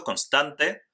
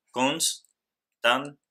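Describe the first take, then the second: First: Said in the usual way. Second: Constante broken as cons... tan... te; syllable by syllable. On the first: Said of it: "En este otro ejemplo". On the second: Shown as a demonstration. Teacher shows that NS stays together in constante, syllable by syllable. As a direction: say constante very slowly, pausing after cons and tan. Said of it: "Entonces decimos".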